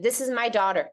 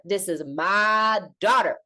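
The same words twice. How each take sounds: First: Said in the usual way. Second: MY drawn out long, daughter weighty; emphatic claim. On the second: Acted. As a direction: slowly declare it, leaning hard on MY. Same words repeated with emphasis.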